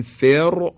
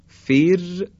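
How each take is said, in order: First: فر with a thick, heavy R; wrong heavy R. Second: فر high, with a thin trilled R; light R. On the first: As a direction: make the R of فر full and heavy. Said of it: "درشت تلفظ کردیم حرف را". (فر با «ر» درشت و غلط) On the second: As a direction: say فر on a light, fine R. (فر با «ر» نازک) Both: Shown as a demonstration.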